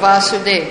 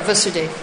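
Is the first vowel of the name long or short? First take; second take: long; short. First: The first vowel is held long. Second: The first vowel is kept short. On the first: It names the Lord, Krishna. "One is for the Lord, Vasudev. That's the name of the Lord" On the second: It names the father. "is short, Vasudev, and the father"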